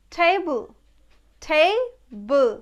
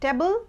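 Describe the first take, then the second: First: Table said TAY-bul, stressed ay; correct pronunciation. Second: Table said TE-bul, short e; common mispronunciation. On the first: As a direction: say table with a long "ay". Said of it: "এর ওপর একটু জোর দিচ্ছি". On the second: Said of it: "it's not table". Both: Shown as a demonstration.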